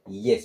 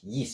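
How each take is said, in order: First: The vowel sounds like 'eh'. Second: The vowel sounds like 'ee'. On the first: The speaker calls it right. "we're going to say yes because E carries the sound of A" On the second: The speaker calls it wrong. "This is not yes because it is single E"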